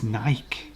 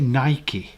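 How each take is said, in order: First: Nike as one syllable, rhyming with Mike; Nike as "nyke"; British pronunciation. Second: Nike louder, ending in "ee"; Nike as "nigh-key"; imitating the other pronunciation. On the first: Shown as a demonstration. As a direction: say Nike without a final "ee". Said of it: "It's Nike". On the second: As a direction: say Nike in two syllables. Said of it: "You say Nike".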